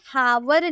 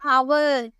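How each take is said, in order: First: The word starts with an audible h sound. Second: The word starts with a vowel, no h sound. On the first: The speaker calls it wrong. "इसे हावर नहीं पढ़ेंगे" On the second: The speaker calls it right. "एच जो है चुप रहता है"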